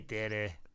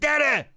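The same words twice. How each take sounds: First: It is said flatly with little energy. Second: It is said loudly with lots of energy.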